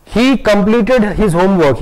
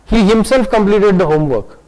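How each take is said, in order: First: Said in the usual way. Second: Himself clearly stressed as the key word. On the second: Shown as a demonstration. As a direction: lean on himself to show he did it alone. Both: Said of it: "There is a difference between these two statements".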